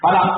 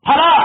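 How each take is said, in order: First: The first consonant is unaspirated. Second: The first consonant is aspirated. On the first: The speaker calls it wrong. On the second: The speaker calls it right.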